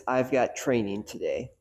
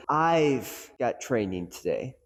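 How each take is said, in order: First: Said in the usual way. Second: I've said slow with a rising push; stress on I've. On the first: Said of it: "take the sentence". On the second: Shown as a demonstration. Coach demonstrating stress on I've, slow emphasis. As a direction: lean on the word I've. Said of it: "put emphasis on different words".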